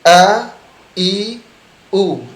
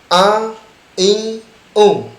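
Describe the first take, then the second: First: The vowels sound oral, with no nasality. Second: The vowels sound nasal, through the nose. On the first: The speaker calls it right. "Tidak ada suara hidung" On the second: The speaker calls it wrong. "Tidak boleh"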